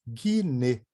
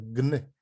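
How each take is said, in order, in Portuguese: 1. Uma vogal extra separa o g e o n. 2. O g e o n são ditos juntos, diretamente. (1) "não pode falar guiné" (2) "é gne"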